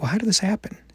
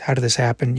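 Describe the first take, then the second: First: It sounds gentle, curious and inquisitive. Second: It sounds hurt, angry and contemptuous.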